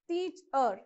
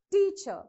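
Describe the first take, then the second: First: Teacher split into two separate beats, teach, er; split into syllables. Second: TEAcher as one word, first syllable higher and stronger; stress on first syllable. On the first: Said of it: "So teacher has two syllables". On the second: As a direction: hit the TEA of teacher, let -cher drop. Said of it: "correct way of pronunciation teacher". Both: Shown as a demonstration.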